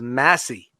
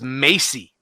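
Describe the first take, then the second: First: The first vowel is short, as in 'mass'. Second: The first vowel is long, as in 'may'. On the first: The speaker calls it right. "My last name is Massey" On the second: The speaker calls it wrong. "everybody pronounces it as Macy"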